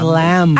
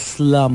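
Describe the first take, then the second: First: The vowel sounds like the one in 'cat'. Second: The vowel sounds like the one in 'cup'. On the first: This is the official way of saying it. "officially, apparently, it's" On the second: This is the local way of saying it. "it's really more known here as slum book"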